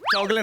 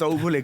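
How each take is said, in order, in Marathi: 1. मधल्या अक्षरात a स्वर आहे. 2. मधल्या अक्षरात u स्वर आहे. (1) "चौगले नाही" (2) "इट्स चौगुले"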